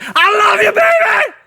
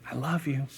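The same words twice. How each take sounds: First: High, blaring declaration of love; comic yell. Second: Hushed, intimate declaration; gentle whisper. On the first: Lover declaring undying love up close, absurdly yelled. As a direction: scream it in mock romantic fervour. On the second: Lover declaring love up close, softly whispered. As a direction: murmur it very softly. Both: Acted. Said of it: "A whisper is way better".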